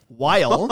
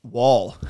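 First: "while" with a clear "why" glide; plain "while". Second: "while" said like "wall", open aw vowel; "while" as /wɔl/, no i glide; Canadian-ish while. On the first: Shown as a demonstration. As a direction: correct "while", rhymes with mile. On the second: Real, not acted. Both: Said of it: "that was not a Canadian accent right there".

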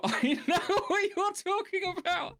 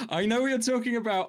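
First: Very high, slow put-on voice dissolving into laughter; laughing repeat. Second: High put-on voice, a touch theatrical; mock knowing voice. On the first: Cracking up at the sinking-Keith joke, laughing through the line. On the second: Teasing a friend about a battleship joke, high mock voice. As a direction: play it as a sly, knowing in-joke.

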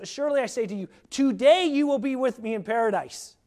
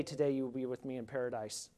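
First: TODAY leaned on, rising and louder through the line; emphatic Jesus quote. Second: Today you will be with me in paradise, almost whispered, much softer and lower, a bit quick; hushed awe. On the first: Retold or imitated. Preacher proclaiming Jesus' promise to the criminal, emphatic. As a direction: proclaim the promise with growing force. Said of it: "He says". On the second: Real, not acted. Preacher marveling to the congregation, hushed. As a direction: breathe it out in quiet wonder. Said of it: "to see Jesus say that today".

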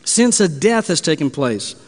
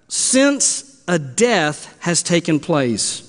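First: Said in the usual way. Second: "since a death has taken place" read slowly, word by word; slow and deliberate. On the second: Shown as a demonstration. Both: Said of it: "Now understand that word death".

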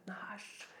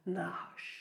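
First: «Nahash» fully whispered, a hissing breath; whispered snake sound. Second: «Nahash» breathed out softly like a snake's hiss; snake-sound word. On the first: Preacher whispering «Nahash» to sound like the snake. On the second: Preacher sounding out the Hebrew word for snake, «Nahash», as a hiss. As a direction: say «Nahash» as a quiet hiss, stretching the final sh. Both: Shown as a demonstration. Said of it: "tatt lyden av slangen".

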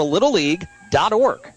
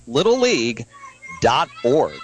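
First: Said in the usual way. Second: "little league", pause, then lower "dot org"; repeated for clarity. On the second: Real, not acted. Web address repeated for listeners.

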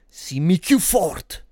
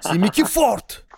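First: Slow Neapolitan street dialect, "Simmi" drawn out; neapolitan street slang. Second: Higher Neapolitan dialect shout, "Simmi più forte" slow; neapolitan street slang. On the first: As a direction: Neapolitan street-guy voice, "più" stretched slowly. Dialect line repeated. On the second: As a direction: Neapolitan street guy calling out, "più" hit high. Repeat, higher and louder. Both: Pretend.

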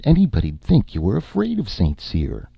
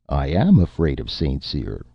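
First: Higher, teasing lift on "afraid"; stress on afraid. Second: "am" hit firmly, falling; stress on am. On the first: Erica teasing Nick that he fears Saint Cyr, stress on "afraid". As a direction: lean on "afraid" to goad him. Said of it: "teasing him, stress on afraid". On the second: Martin admitting his fear, stressing "am". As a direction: insist by leaning on "am". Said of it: "Martin said". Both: Acted.

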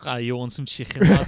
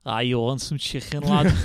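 First: Loud mock Scouse accent; Fabinho's Scouse. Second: Mock Scouse accent, louder on lad; Fabinho's Scouse. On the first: Shown as a demonstration. Showing friends how Scouse sounds, mock Scouse. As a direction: do the thick Scouse impression on request. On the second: Joking as an example of British accents, mock Scouse. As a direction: put on a thick Scouse accent. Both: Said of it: "Fabinho's impression of a Scouse".

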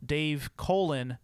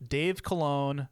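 First: Colon said slowly as "COH-lun", stress on the first syllable like the body part; accent dropped. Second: Colon said slowly as "kuh-LOHN", stress on the last syllable; accented Colon. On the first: His series name without the accent, "COH-lun" stressed first. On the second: Introducing himself as presenter three, "kuh-LOHN" stressed last. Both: Shown as a demonstration. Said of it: "drop the accent over my second O".

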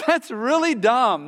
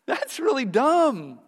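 First: Said in the usual way. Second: Slow, higher mock-incredulous scoff; dismissive scoff. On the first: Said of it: "That's really dumb that someone would". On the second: All creation judging false accusers, slow mocking scoff. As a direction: drag out the disbelief, mocking. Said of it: "all creation is gonna go".

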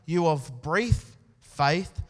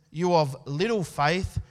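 First: "brief" drawn out and stressed; slow down and lean on "brief". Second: Said in the usual way. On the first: Shown as a demonstration.

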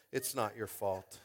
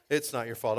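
First: Soft, low and slow reassurance; slow, hushed comfort; tender consoling. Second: Said in the usual way. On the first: Pretend. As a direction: ease the child's guilt gently. Comforting kid who dropped baby.

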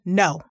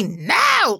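First: Firm, low, falling no; stern no. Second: Overdone harsh no. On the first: Parenting coach showing the no it should be, stern. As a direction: lay down a boundary without yelling. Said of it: "it should be a stern". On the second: Parenting coach showing what a no shouldn't be, mock yell. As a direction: burst out with an exaggerated no. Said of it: "Like, it shouldn't be that". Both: Shown as a demonstration.

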